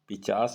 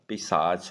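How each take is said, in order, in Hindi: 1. इसमें पहले 'ch' और फिर 's' बोला जाता है। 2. इसमें पहले 'sh' और फिर 'ch' बोला जाता है। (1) "पिचास नहीं होता" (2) "पिशाच होता है"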